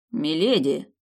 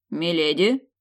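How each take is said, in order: First: Firm, louder address with a falling end; even, composed. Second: Louder, with a questioning rise; puzzled. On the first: Guard answers milady's urgent demand, evenly. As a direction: state it evenly, no question in it. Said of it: "ровно произнёс стражник". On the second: Guard meets milady leaving her rooms, puzzled. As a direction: address her in bewilderment, tune going up. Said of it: "недоуменно произнёс стражник". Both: A narrator's reading.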